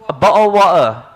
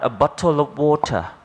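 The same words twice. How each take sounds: First: The t in the middle of water is dropped. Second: The t in the middle of water is pronounced. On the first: "tea in the middle of the word is is gone" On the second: "in London people don't say"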